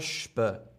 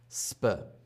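First: The s is pronounced like sh. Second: The s is pronounced as plain s. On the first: The speaker calls it right. "die Kombination wird zu Sch, St oder Sp" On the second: The speaker calls it wrong. "und nicht St, Sp"

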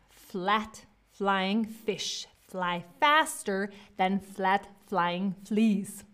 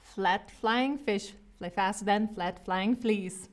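First: The phrase is said very slowly. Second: The phrase is said at normal speed. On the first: "Now we're gonna do this really, really slowly" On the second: "I'm gonna say it first"

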